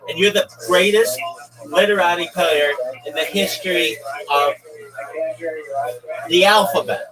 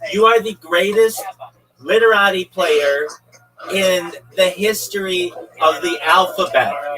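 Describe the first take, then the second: First: It is said at normal volume. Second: It is said loudly.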